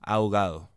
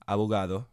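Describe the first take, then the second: First: The b sound is dropped completely. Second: The b is a soft, weakened consonant. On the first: "this can be further reduced to" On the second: "a very normal pronunciation with the soft consonants"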